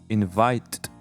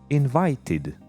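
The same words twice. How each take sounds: First: The word ends with a plain t sound. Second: The word ends with an id syllable. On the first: The speaker calls it wrong. "No, it doesn't work in the second box" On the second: The speaker calls it right. "pronouncing id at the end"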